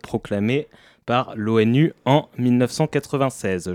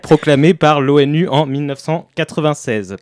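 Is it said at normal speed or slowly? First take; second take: slowly; normal. First: It is said slowly and carefully. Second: It is said at normal speed.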